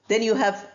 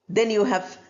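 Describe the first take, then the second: No difference in how they are said.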